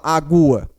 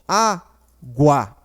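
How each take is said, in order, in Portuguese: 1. O som do U é forte e tônico. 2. O som do U é fraco e átono. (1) "Ou você fala agua? Não" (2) "o U é bem fraquinho"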